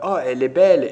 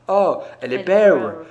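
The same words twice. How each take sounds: First: The L sounds like a normal French L. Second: The L sounds like an English L. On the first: "au lieu de dire belle" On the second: "vous dites"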